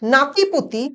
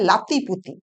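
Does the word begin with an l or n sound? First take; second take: n; l. First: The word begins with an n sound. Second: The word begins with an l sound. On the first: This is the standard form. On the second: This is the Jharkhandi dialect form.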